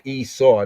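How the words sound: The name has an English-style pronunciation. The speaker calls it wrong. "not Esau. That's English"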